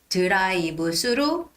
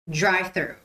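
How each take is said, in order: First: The word 'through' begins with an s sound. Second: The word 'through' begins with a th sound. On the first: The speaker calls it wrong. "T H is translated to S sound because we don't have a T H sound" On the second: The speaker calls it right. "But no, it's drive through"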